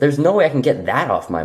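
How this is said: The word 'that' is clearly emphasized.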